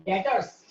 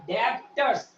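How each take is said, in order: First: डेटर्स said with a silent b, deh-ters; correct pronunciation. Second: डेप्टर्स said with the b sounded, dep-ters; wrong pronunciation. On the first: Teacher models the right way for class, silent b. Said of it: "डेटर्स बोलते हैं". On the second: Teacher mimics students mispronouncing the word, डेप्टर्स with b. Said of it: "यहाँ बी silent है". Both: Shown as a demonstration.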